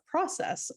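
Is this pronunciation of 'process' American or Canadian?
American. It is said the usual American way.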